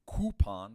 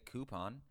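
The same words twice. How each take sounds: First: "coupon" as a heavy KOO-pon; "coupon" said KOO-pon, overdone; rejected coupon pronunciation. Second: "coupon" as an easy, soft KOO-pon; "coupon" said KOO-pon, understated; own coupon pronunciation. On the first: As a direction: lean hard on the koo in "coupon". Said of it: "I don't say coupon". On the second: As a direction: say "coupon" softly, lightly on the koo. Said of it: "but I say coupon". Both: Shown as a demonstration.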